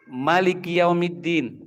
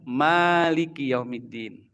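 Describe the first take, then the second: First: The first vowel of Maliki is short. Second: The first vowel of Maliki is long. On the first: It means king of the Day of Judgment. "dibaca pendek" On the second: It means owner of the Day of Judgment. "dibaca sehari-hari kita"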